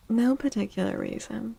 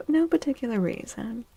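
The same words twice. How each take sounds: The two takes are said the same way.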